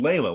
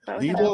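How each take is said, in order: First: The first syllable sounds like 'lay'. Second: The first syllable sounds like 'lee'. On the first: The speaker calls it wrong. "I thought it was Layla, like [name]" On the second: The speaker calls it right. "Leela, like Sheila"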